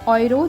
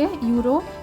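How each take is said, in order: First: The word begins with an 'oy' sound. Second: The word begins with a 'yoo' sound. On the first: This is the German pronunciation. "ऑयरो जर्मन में होता है" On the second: This is the English pronunciation. "यूरो English में होता है"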